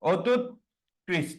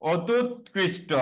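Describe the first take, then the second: First: অত্যুৎকৃষ্ট stretched even slower into parts; even slower split. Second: অত্যুৎকৃষ্ট said slowly, each part separate; slow syllable by syllable. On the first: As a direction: spell out অত্যুৎকৃষ্ট very slowly. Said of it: "যদি এরকম বলি". (আরও ধীরে টেনে বলা) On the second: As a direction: drag out অত্যুৎকৃষ্ট slowly for the class. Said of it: "লক্ষ্য করো, আমরা যদি এভাবে বলি". (ধীরে ধীরে ভেঙে বলা) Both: Shown as a demonstration.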